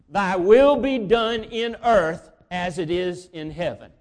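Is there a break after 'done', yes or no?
no. It runs on without a break after 'done'.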